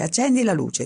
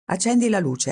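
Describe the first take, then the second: First: Shouted again, same raised pitch; insist, yelling into the dark; repeated shout. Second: Shouted demand, a bit higher. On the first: (ripetuto gridando, un po' più acuto) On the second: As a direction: call into the dark room. (gridato con rabbia, un po' più acuto) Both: A narrator's reading. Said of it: "gridò".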